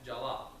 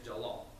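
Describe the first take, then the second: First: The pitch does not drop low in the name. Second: The pitch goes down low in the name. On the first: It is not the boy's real name. The speaker calls it wrong. "Donella will call him Jalal" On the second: It is the boy's real name. The speaker calls it right. "You go down, you go low"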